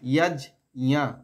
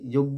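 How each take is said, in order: First: The middle consonant cluster is split apart. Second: The middle consonant cluster is blended together. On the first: The speaker calls it right. "জ আর ইয়কে ভেঙে দেবো" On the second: The speaker calls it wrong. "যজ্ঞ বলবো না"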